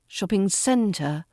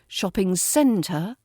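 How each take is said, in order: The two takes are said the same way.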